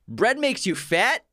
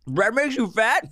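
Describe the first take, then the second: First: It is said clearly with an empty mouth. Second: It is said muffled, with a full mouth.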